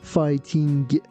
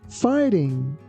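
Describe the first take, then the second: First: The final G is pronounced strongly and clearly. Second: The final G is pronounced softly and lightly. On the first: The speaker calls it wrong. "be careful not to put too much stress on the letter G. We don't say fighting" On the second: The speaker calls it right. "we say fighting"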